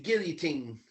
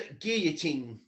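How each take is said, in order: First: The L sound is clearly pronounced. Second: The L sound is left out. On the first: The speaker calls it wrong. "No, don't even say the L's" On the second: The speaker calls it right. "Just say gui and then a teen"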